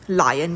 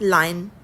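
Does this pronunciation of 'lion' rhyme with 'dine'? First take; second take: no; yes. First: The word is said in its usual form. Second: The word is said to rhyme with 'dine'. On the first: It is the standard form. "लायन के बजाय" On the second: It keeps the poem's rhyme. "डाइन के साथ लाइन कर देंगे हम read करते हुए"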